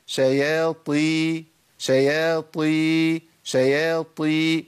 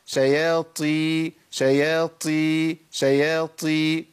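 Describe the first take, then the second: First: شياطي with a firm, breathless ط held slow; correct tajweed demo. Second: شياطي with breathy ت-like aspirated ط; wrong pronunciation demo. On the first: Teacher drawing out the right شياطي for students. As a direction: say شياطي slowly with a full, unaspirated ط. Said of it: "ده الصواب". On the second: Teacher repeats the wrong شياطي so students hear it. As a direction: let air escape on the ط of شياطي, the mistake. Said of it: "الخطأ". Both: Shown as a demonstration.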